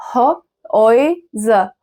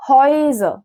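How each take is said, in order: First: Very slow Häuser, pulled apart into pieces; syllable by syllable. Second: Said in the usual way. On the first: Shown as a demonstration. Teacher spelling out the plural for learners, very slow Häuser. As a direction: sound out Häuser bit by bit with gaps.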